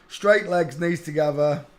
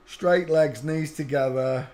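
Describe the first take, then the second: No difference in how they are said.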